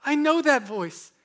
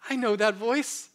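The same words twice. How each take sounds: First: Louder recognition. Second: Recognition. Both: Acted. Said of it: "they say".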